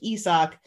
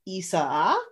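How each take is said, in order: First: The name is said with two syllables. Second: The name is said with three syllables. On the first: This is how the name used to be said. "instead of like Isaac" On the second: This is how the name is said now. "it's a three syllable intro now"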